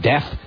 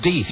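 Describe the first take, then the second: First: The vowel is short, like in breath. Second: The vowel is long, like in teeth. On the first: The name is read the way it is spelled. "his name was D-E-A-T-H" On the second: The name bearer insists on a special pronunciation. "no, it's pronounced Deeth"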